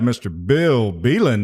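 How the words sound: It is said in a booming announcer voice.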